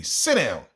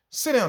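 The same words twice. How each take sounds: First: Said in the usual way. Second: Sit down jumps up high; higher, sharper repeat. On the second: Retold or imitated. Teacher ordering thirsty kids, pitched-up repeat.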